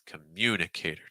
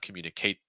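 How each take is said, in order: First: The stress falls on the 'mu' syllable. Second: The stress falls on the 'cate' syllable. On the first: The speaker calls it right. "you're going to hear the stress on mune" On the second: The speaker calls it wrong. "So it's not communicator. ... So you're stressing Kate"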